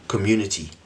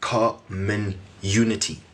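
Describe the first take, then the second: First: Said in the usual way. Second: "common unity" slowly, with gaps between the parts; word split apart. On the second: Shown as a demonstration. Host shows the roots of community, "common unity" said slowly in pieces. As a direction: break "common unity" into separate, measured pieces.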